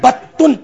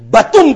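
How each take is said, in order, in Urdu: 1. درمیانی حرف کو دیر تک روکا جاتا ہے اور وہ دوہرا ہے۔ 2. درمیانی حرف چھوٹا اور اکہرا ہے۔ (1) "تشدید کے ساتھ نہیں" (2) "بغیر تشدید کے"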